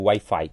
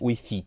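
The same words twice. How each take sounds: First: The word is pronounced the Portuguese way. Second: The word is pronounced the Spanish way. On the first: "Para o Wi-Fi" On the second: "Em espanhol a gente geralmente fala, pronuncia wifi"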